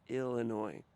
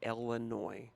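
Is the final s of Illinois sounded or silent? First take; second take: silent; sounded. First: The word ends without an s sound. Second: The word ends with an audible s sound. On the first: The speaker calls it right. "It's Illinois" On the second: The speaker calls it wrong. "please don't say Illinois"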